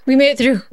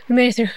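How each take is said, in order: First: Said in the usual way. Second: Hushed whispered echo of the cheer. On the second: Real, not acted. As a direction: whisper it to yourself, relieved. Repeats it as a whisper.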